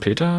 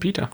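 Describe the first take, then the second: First: The name is said with German pronunciation. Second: The name is said with English pronunciation. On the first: "Im Deutschen Peter" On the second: "im Englischen Peter"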